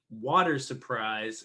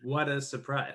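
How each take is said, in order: First: "water surprise" with a clear American r; "water" said fully, r sounded; pron. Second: "what a surprise" without the r sound; "what a" said as two quick words; pron. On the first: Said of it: "why would she be saying". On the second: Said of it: "instead of". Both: Shown as a demonstration.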